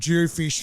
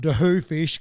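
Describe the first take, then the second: First: The first part is said as one syllable. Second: The first part is said with two syllables. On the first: This is how West Australians say it. "we pronounce them dew fish like you do your Mulloway" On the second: This is how people on the east coast say it. "for East Coasters, they call them dahoo fish because of the way it's spelled"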